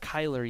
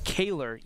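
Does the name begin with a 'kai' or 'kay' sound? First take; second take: kai; kay. First: The name begins with a 'kai' sound. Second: The name begins with a 'kay' sound. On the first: The speaker calls it wrong. "I think I've been pronouncing it wrong" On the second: The speaker calls it right. "Kaylor Yates, not Kyler Yates"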